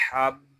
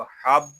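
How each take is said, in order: First: हब pressed on a long b, then released; firmly held doubled b. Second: हब cut short on a plain final b; unheld single b. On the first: Teacher shows the shadda, हब with held b. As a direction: lean on the b of हब before letting go. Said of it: "इसको जमाओ के साथ अदा करेंगे". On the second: Teacher shows how not to read it, short unheld हब. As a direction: stop हब at once, no hold. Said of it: "ऐसे नहीं पढ़ेंगे". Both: Shown as a demonstration.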